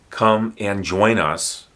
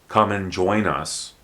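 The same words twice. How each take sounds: First: The word 'and' is said in full. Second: The word 'and' is reduced to an n.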